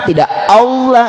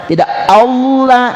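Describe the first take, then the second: The two takes are said the same way.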